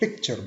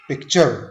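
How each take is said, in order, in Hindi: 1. ज़ोर पहले अक्षर पर है। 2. ज़ोर दूसरे अक्षर पर है। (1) "हम पिक्चर बोलेंगे" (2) "इसको हम ऐसे नहीं बोलेंगे"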